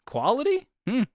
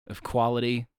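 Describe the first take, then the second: First: High rising skeptical "Quality?"; doubtful question. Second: Said in the usual way. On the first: Acted. Questions own word, mock doubt.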